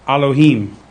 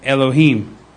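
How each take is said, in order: First: The word begins with an 'ah' vowel. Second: The word begins with an 'eh' vowel. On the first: This is the ancient Hebrew pronunciation. "in the ancient Hebrew, it has an a sound" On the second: This is the modern Hebrew pronunciation. "in the modern Hebrew, the it's silent"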